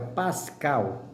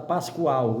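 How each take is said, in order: First: No 'w' glide follows the k sound. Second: A 'w' glide follows the k sound. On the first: The speaker calls it right. "é pascal" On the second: The speaker calls it wrong. "fala errada, fala pascual"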